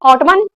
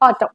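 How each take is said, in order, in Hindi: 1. यह शब्द सुनाई देने वाली n ध्वनि से खत्म होता है। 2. यह शब्द m से खत्म होता है, इसमें n ध्वनि नहीं है।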